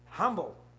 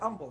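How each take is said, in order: First: The word starts with a clear h sound. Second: The word starts without an h sound. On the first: The speaker calls it right. "It's ha" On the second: The speaker calls it wrong. "They leave the H silent"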